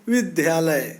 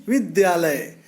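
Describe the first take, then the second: Both takes have the same delivery.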